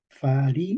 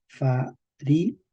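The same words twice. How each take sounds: First: FARINAM with the accent on RI, that vowel drawn out; stress on RI. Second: FARINAM in slow separate syllables, none stressed. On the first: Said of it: "ponemos el acento". (farinam con acento en la RI) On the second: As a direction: say farinam syllable by syllable, evenly, without an accent. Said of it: "sin el acento". (farinam sílaba por sílaba, sin acento) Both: Shown as a demonstration.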